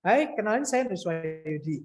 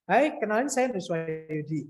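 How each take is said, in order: First: The syllables are slurred and hard to make out. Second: The syllables are slurred and hard to make out.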